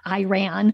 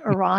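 First: It is pronounced in an Americanized way. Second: It is pronounced the way people from Iran say it. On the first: This is how Americans commonly say it. The speaker calls it wrong. "That's the slaughtered American version" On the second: This is how people from the country say it. The speaker calls it right. "They call it Iran"

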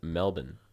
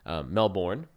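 First: It is said with an Australian pronunciation. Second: It is said with an American pronunciation. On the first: The speaker calls it right. "if you go to Australia, they pronounce it Melbourne" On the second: The speaker calls it wrong. "American listeners, Melbourne, ... you may recognize that pronunciation"

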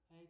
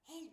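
First: The call is said at a quiet, normal volume. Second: The call is shouted loudly across a distance. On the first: The speaker calls it wrong. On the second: The speaker calls it right.

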